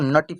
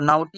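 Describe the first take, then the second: First: The first vowel is short like 'o' in 'not'. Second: The first vowel glides like 'ow' in 'now'. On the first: The speaker calls it right. "इसको नटी पढ़ेंगे" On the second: The speaker calls it wrong. "ये नहीं पढ़ेंगे"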